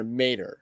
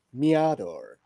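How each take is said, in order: First: Mader as MAY-der; alternative pronunciation. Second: Meador as mee-AH-dor; tentative pronunciation. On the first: Host offering another guess at the surname, Mader as MAY-der. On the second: Host guessing at a writer's surname, Meador tried as mee-AH-dor. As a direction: say Meador slowly in three syllables, mee-AH-dor. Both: Shown as a demonstration. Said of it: "I don't know how you pronounce his name".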